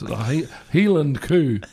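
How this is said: Cow is said as 'coo' in a Scottish accent.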